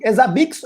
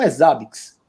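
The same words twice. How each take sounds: First: "Zabbix" stressed on the last syllable, za-BIKS; first pronunciation variant. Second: "Zabbix" stressed on the first syllable, ZA-biks; second pronunciation variant. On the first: Host asks guest which pronunciation is correct, "Zabbix" as za-BIKS. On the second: Host offers the other pronunciation to guest, "Zabbix" as ZA-biks. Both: Shown as a demonstration. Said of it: "É Zabbix ou é Zabbix?".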